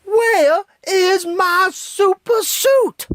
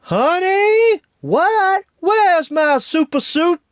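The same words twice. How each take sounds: First: Much higher, very slow drawn-out loud shout, falling; Frozone meme voice. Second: Much higher, loud frantic shout, rising; Frozone meme voice. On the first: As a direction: stretch every word in exasperation. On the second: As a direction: holler it through the apartment, panicked. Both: Retold or imitated. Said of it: "without mentioning".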